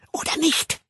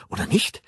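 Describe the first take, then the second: First: High, insistent hissed question. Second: Hoarse whisper. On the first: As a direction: hiss it, demanding agreement. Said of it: "zischte sie". (eindringlich gezischt) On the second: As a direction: whisper it, seeking agreement. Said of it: "flüsterte sie heiser". (heiser geflüsterte Nachfrage) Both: A narrator's reading.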